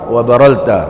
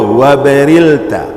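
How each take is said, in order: First: The vowel after the first r is a. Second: The vowel after the first r is i. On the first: "Wa hukiya fathul ula" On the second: "dibacakan bi kasri ra al-ula. Ra yang pertama dibariskan bawah"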